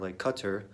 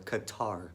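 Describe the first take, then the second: First: It sounds like the English word cutter. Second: It sounds like ka-TAR, stressing the second syllable. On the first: The speaker calls it right. "like C U T T E R" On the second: The speaker calls it wrong. "ka like a K A, and then tar, T A R. Very big emphasis on the tar"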